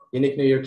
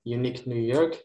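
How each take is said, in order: First: The phrase is said very fast. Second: The phrase is said fast. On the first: "And faster, more, more faster" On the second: "Lalu faster, lebih cepat lagi"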